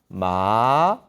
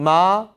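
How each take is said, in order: First: It is said in the third tone. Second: It is said in the first tone. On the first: "삼성" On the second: "일성 마"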